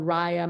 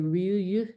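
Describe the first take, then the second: First: The word is said with an English pronunciation. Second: The word is said with a Finnish pronunciation. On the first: "it's pronounced Rhea, Raya" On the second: "which is the Finnish pronunciation, sort of"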